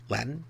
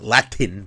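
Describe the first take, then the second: First: The middle consonant is dropped. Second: The middle consonant is clearly pronounced. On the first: "but Latin. I just I kind of drop it" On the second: "not Latin"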